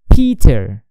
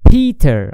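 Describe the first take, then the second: First: The P hits with a loud wind pop. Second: The P sounds soft with no wind burst.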